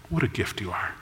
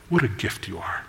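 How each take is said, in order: First: Even quieter, lingering repeat; hushed loving echo; softer tender echo. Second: Soft, low, hushed adoration; quiet tender awe; tender praise. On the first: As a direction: let the repeat sink almost to a murmur. Groom repeats praise, softer. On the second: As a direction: breathe it to your bride like a gift. Groom tenderly praising his bride. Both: Acted.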